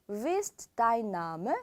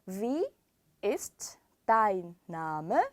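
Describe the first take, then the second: First: The words are said quickly and run together. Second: The words are said slowly and separately. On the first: "빨리 읽으면요" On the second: "읽어볼게요"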